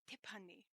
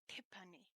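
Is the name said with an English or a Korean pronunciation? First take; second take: Korean; Korean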